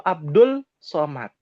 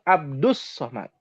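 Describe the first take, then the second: First: An l sound comes before Somad. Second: An s sound comes before Somad. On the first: The speaker calls it wrong. "Orang Indonesia ada yang bilang Abdul Somad" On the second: The speaker calls it right. "Yang betul Abdus Somad"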